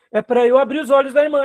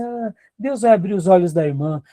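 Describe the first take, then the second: First: "abrir os olhos da irmã" said firmly and a bit higher, stress on "da"; firm correction. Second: Mock soft passive excuse. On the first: Real, not acted. Pastor answers the excuse with firm, raised stress. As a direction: state the duty plainly and firmly. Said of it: "se eu estou sendo treinado aqui". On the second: Pastor mocks a complacent leader with a hint of a soft, passive voice. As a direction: shrug it off, leaving it to God. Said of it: "a gente não pode ser frouxo".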